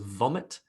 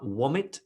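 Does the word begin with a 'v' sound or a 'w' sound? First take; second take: v sound; w sound. First: The word begins with a 'v' sound. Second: The word begins with a 'w' sound. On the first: The speaker calls it right. "instead of vomit" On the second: The speaker calls it wrong. "the w and the v are mixed up"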